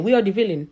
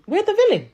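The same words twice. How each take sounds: First: Said in the usual way. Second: High, indignant restatement; indignant repeat. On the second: Real, not acted. Complaining to the other islands about always being the villain, indignant and high. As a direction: hit it again higher, fed up.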